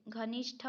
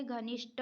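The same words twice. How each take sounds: First: घनिष्ठ as transposed for the example, "ghanishtha"; wrong pronunciation. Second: घनिष्ठ with unaspirated ending, "ghanishta"; corrected pronunciation. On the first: Teacher rejecting a spelling, घनिष्ठ with aspirated "ṭha". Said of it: "ट ठ का अदला बदली है". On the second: Teacher giving a correction, घनिष्ठ with unaspirated "ṭa". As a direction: end घनिष्ठ on a hard "ṭa" without breath. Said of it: "होता है". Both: Shown as a demonstration.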